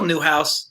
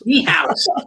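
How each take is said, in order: First: The first part sounds like 'new'. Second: The first part sounds like 'knee'. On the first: The speaker calls it wrong. "is that not pronounced right?" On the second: The speaker calls it right.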